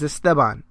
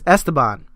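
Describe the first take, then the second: First: The name is said with a Spanish pronunciation. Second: The name is said with an English pronunciation. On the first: "His name in Spanish is Esteban" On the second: "His name is Esteban in English"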